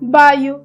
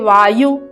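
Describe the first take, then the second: First: The word begins with a b sound. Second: The word begins with a v sound. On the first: "परंतु ओडिया में जब आप लिखते हो तो उसको क्या होगा" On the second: "व का हम उच्चारण करते हैं"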